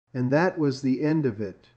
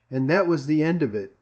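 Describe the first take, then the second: No difference in how they are said.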